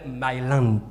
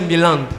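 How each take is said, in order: First: The name is said like 'my land'. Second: The name is said as 'Mélande'. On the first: The name becomes 'my land', meaning my territory. "je l'appelle Myland, qui veut dire ma terre" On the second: This is the name's usual pronunciation. "le nom est prononcé Mélande"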